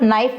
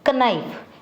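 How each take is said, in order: First: The word starts with an n sound, no k. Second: The word starts with a k sound before n. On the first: This is how it is said today. "हम के को silent करते हैं" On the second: This is how it was said in ancient times. "इसमें के silent नहीं था"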